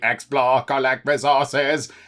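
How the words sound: It is yelled in a Dalek voice.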